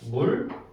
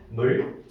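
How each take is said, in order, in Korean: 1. 이 모음은 원순 'u' 소리입니다. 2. 이 모음은 평순 'eu' 소리입니다. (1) "요거를 슉 해보니까 어떻게 돼요?" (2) "옛날에는 어떻게 썼냐면"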